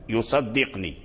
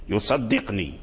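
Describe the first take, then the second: The two takes are said the same way.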